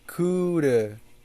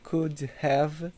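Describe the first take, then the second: First: Have is reduced to a weak uh sound. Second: Have is said as a full separate word.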